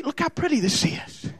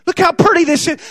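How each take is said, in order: First: Tempting hush. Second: Said in the usual way. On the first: Acted. Hell luring the church, hushed and coaxing. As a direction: look how pretty this is said much softer, hushed. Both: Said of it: "that's just how hell will tell you".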